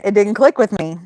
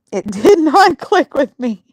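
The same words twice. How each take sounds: First: Said in the usual way. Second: Higher, laughing stress on DID NOT; laughing emphasis. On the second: Real, not acted. Host admitting a missed joke to viewers, laughing. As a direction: repeat it emphatically through real laughter. Repeats it, cracking up.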